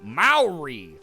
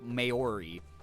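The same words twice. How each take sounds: First: The word gets an anglicized American pronunciation. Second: The word gets an even more anglicized pronunciation. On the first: "one of those obnoxious Americans who's like" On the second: "or way worse, there's people who say like"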